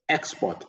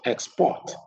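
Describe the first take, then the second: First: The stress is on the first syllable. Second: The stress is on the second syllable. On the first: It is used as a noun. "the words on the left are all nouns, and we stress the first syllable" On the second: It is used as a verb. "The words on the right are all verb, and we stress the second syllable"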